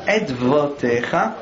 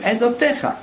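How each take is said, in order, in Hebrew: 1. האות ו נהגית כצליל נפרד. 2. האות ו שקטה, אינה נהגית. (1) "בדרך כלל לא אומרים, למשל" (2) "בדרך כלל אומרים עדותיך"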